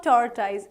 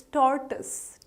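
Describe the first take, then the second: First: "tortoise" as TOR-tize; mispronounced tortoise. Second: "tortoise" as TOR-tus; slow "tortoise" with a weak second vowel; correct tortoise. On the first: Teacher warning learners off wrong tortoise, mispronounced. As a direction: rhyme the end of "tortoise" with eyes. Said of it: "It's not tortoise". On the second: Teacher giving learners the right tortoise, slowly. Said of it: "Tortoise is the correct pronunciation". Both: Shown as a demonstration.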